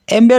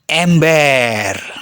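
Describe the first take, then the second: First: The word is said with a flat, ordinary tune. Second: The word is said with a playful, lilting tune. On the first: It is the ordinary everyday word. "tidak hanya terdengar datar sebagaimana umumnya" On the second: It is the funny celebrity-slang version. "ember yang mereka ucapkan punya intonasi yang khas"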